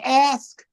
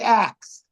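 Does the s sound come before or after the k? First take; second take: before; after. First: The s sound comes before the k. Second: The k sound comes before the s. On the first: "like ask" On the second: "some people say ax"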